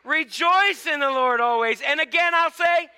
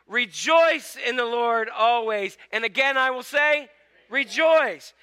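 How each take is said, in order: First: It is read in a happy, joyful way. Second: It is read in a plain, neutral way. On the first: "Say that like you're happy" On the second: "Say this with me"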